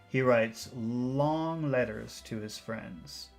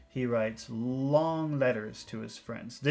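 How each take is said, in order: No difference in how they are said.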